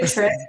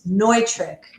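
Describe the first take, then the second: First: The first syllable sounds like 'new'. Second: The first syllable sounds like 'noy'. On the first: The speaker calls it wrong. "not not Nutric, although you know we'll take it" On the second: The speaker calls it right. "So it's it's Neutrik. ... It's Germanic"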